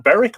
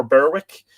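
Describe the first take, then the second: First: "Berwick" said as BERR-ick; silent-w pronunciation. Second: "Berwick" said as BER-wick, w sounded; spelling pronunciation. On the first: Host checking a place name, "Berwick" pronounced BERR-ick. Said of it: "they would pronounce it Berwick". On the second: Host offering the alternative, "Berwick" pronounced BER-wick. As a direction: say "Berwick" with a clear w. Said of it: "Is that Berwick or Berwick?". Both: Shown as a demonstration.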